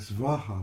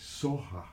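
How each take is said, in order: First: The word starts with a hard 'sv' sound. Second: The word starts with a soft 's' sound. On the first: This is the Sanskrit way of saying it. "which is a Sanskrit pronunciation" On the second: This is the Tibetan way of saying it. "Tibetan's a little softer. They say Soha"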